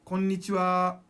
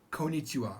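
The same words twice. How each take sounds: First: Konnichiwa with both n's sounded; double n. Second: Konnichiwa as ko-nichiwa; single short n. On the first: Teacher modelling the right greeting, konnichiwa with doubled n. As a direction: give konnichiwa its long n. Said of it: "Don't say konnichiwa". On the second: Teacher showing what not to say, konnichiwa with one n. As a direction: rush past the n in konnichiwa. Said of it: "Don't say". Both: Shown as a demonstration.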